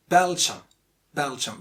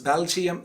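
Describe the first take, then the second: First: Belgium as BEL-jum, two syllables; correct pronunciation. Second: Belgium as BEL-jee-um; mispronunciation. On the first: Teacher giving the simple fix, correct Belgium. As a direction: say "Belgium" short, with no ee. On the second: Teacher rejecting the common mistake, mispronounced Belgium. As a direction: split "Belgium" wrongly into three syllables. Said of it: "it's not Belgium". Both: Shown as a demonstration.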